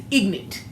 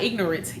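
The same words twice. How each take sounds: First: IGNORANT shortened to "IG-nit", no R; dialect pronunciation. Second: IGNORANT in three syllables, "IG-nor-ence"; standard pronunciation. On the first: Daughter insisting on her own word, ignorant said as "ignit". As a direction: drop the middle of "ignorant", ending on a crisp T. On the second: Daughter showing the rejected word, ignorant said fully as "ig-nor-ence". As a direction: sound out the middle R in "ignorant". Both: Shown as a demonstration. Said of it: "I said ignorant, not ignorant".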